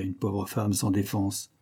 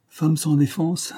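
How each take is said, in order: First: Said in the usual way. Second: High, slow, drawn-out "Femme sans défense"; amused, lingering repeat of "Femme sans défense"; mocking echo. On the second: A narrator's reading. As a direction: savour "Femme sans défense" ironically, slowly and higher. Amused Parr echoes the phrase ironically.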